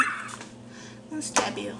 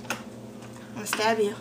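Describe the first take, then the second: First: Whispered threat. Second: Said in the usual way. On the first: Pretend.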